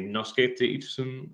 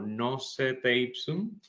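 First: It is read with Latin letter sounds. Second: It is read with Spanish letter sounds. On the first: "en latín" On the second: "si la leemos hasta como si fuera una palabra en español"

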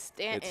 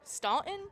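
First: The first vowel sounds like 'a' in cat. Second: The first vowel sounds like 'aw' in saw. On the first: The speaker calls it right. "No, it's Stanton" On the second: The speaker calls it wrong. "we're like, Staunton? What's Staunton?"

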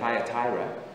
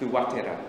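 First: The first syllable sounds like 'thy'. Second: The first syllable sounds like 'thoo'. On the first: This is the common pronunciation. The speaker calls it wrong. "We say Thyatira" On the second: This is the original pronunciation. The speaker calls it right. "is how you pronounce it"

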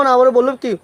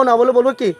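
The two takes are said the same way.

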